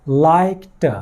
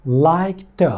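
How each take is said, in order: The two takes are said the same way.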